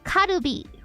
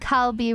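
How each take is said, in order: First: It is said with an r sound, three syllables. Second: It is said with an l sound, two syllables.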